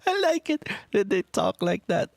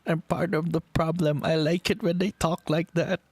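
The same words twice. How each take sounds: First: Much higher, swooning repeat of "I like it when they talk like that"; much higher gushing fan squeal. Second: Higher, guilty admission with a grin; higher playful self-mockery; sheepish confession. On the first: Shown as a demonstration. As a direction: squeal the admission like a giddy fan. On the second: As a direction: own up to being part of the problem. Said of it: "and I'm like".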